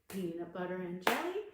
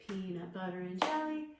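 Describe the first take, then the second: Both takes have the same delivery.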